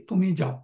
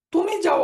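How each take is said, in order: First: Said in the usual way. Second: Higher and louder command, তুমি যাও barked out; giving an order. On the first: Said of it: "তুমি যাও, order". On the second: Shown as a demonstration. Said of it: "order". (আদেশের সুরে, জোরে ও উঁচু গলায়)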